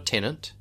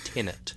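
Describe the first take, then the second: First: An extra N sound comes before the final T. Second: No N sound comes before the final T. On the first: The speaker calls it wrong. "most people pronounce it with an N, but it's not a tenant" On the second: The speaker calls it right. "It's Tenet"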